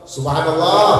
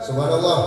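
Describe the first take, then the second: First: Louder, insistent mock-exasperated Subhanallah. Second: Restrained, mildly irritated Subhanallah; a first, held-back reminder to the imam; mild exasperation. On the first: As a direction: push the reminder out with mounting impatience. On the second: Acted. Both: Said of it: "agar getan".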